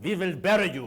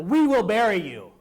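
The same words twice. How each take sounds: First: Imitated Russian accent, w turned to v; heavy Russian accent. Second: Put-on loud quote in own accent; declaimed quote. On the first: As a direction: quote it in a mock Russian accent. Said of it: "with a very heavy Russian accent". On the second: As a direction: proclaim it like a speech, loudly. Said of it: "gave a speech and said".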